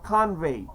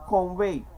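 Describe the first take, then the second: First: "convey" with an "ah" in the first syllable; corrected pronunciation. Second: "convey" with an "aw" in the first syllable; accented pronunciation. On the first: Speaker fixing own accent slip, "convey" said as "kahn-vay". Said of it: "instead of convey". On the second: Speaker owning up to accent slip, "convey" said as "kawn-vay". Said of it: "I said convey instead of convey". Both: Shown as a demonstration.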